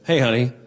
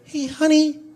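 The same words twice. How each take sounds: First: It is said in a normal voice. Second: It is said in an annoying, reedy voice.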